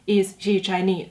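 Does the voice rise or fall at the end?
fall. The voice falls at the end.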